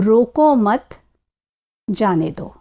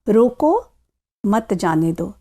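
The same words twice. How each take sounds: First: There is a pause right after 'mat'. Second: There is a pause right after 'roko'. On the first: Do not stop the person; let them go. "अब देखिए मैं इन्हीं शब्दों को किस प्रकार बोलती हूं।" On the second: Stop the person and do not let them go. "किसी को रुकने के लिए कह रहे हैं और उसे जाने के लिए मना कर रहे हैं।"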